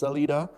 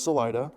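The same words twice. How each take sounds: First: The name gets its standard, textbook pronunciation. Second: The name gets the locals' own pronunciation. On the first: This is the officially correct form. "technically it's Salida" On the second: This is how residents say it. "everybody there says Salida"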